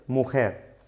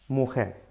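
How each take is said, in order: Both takes have the same delivery.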